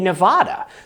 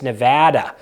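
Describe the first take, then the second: First: It is pronounced the way New Englanders say it. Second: It is pronounced the way Nevada residents say it. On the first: This is how people from New England say it. "In New England, where I'm from, we say Nevada" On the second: This is how people living in Nevada say it. "if you apparently live in Nevada, it's Nevada"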